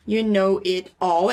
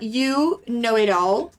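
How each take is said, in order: First: You know it all said slowly and lower, without the final rise; lower, flatter You know it all; slow teacher model. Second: You know it all said slowly, rising at the end; slow modelling of You know it all; slow teacher model. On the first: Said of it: "é como se você estivesse chamando". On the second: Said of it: "você pode falar". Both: Shown as a demonstration.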